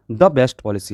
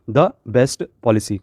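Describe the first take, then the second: First: Said in the usual way. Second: The best policy read out slowly, each word clear; slow, stressed reading. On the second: Shown as a demonstration. Teacher reads the answer slowly to her students. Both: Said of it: "हमेशा the लगाया जाता है".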